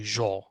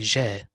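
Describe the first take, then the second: First: The first sound is pronounced heavy, filling the mouth. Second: The first sound is pronounced light, without a full mouth. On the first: The speaker calls it wrong. "Don't say جا. If you say جا, it's also جيم, but it is مفخمة" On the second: The speaker calls it right. "So here we say جاء"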